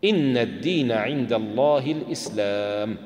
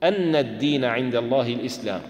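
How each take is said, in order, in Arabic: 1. تبدأ الكلمة الأولى بالحركة 'i'. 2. تبدأ الكلمة الأولى بالحركة 'a'. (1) "بكسر الهمزة ابتداء" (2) "فيكون هذا بدلا من مفعول شهد الله"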